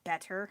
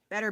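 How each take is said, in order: First: The middle consonant is a clear T sound. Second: The middle consonant is a quick D-like sound. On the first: This is how some other people say it. "some people I guess say better" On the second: This is how people in the speaker's area say it. "I sound like there's a D"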